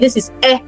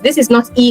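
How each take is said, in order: First: It is a short 'eh' vowel, as in 'head'. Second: It is a long 'ee' vowel, like the letter name. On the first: The speaker calls it right. "But for sounds, ... this is E" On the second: The speaker calls it wrong. "avoid the temptation of pronouncing this as E ... Letter E ... is pronounced as E"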